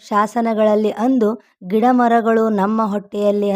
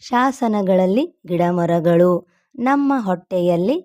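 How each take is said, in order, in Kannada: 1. ವಿರಾಮ ಶಾಸನಗಳಲ್ಲಿ ಎಂದ ಮೇಲೆ ಬರುತ್ತದೆ. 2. ವಿರಾಮ ಮರಗಳು ಎಂದ ಮೇಲೆ ಬರುತ್ತದೆ. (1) "ಅಂದರೆ ರಾಂಗ್ ಆಗ್ತದೆ" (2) "ಇಲ್ಲಿ ಒಂದೊಂದು ಸಪ್ರೇಟ್ ಆಗಿ ನೀವು ಓದ್ತಾ ಹೋಗಬೇಕು"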